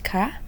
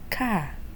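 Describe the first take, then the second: First: The particle has the tone used for questions. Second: The particle has the tone used for statements. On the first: The sentence is a question. "if it's a question we'll use ka" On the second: The sentence is a statement. "if it's a sentence we'll use ka"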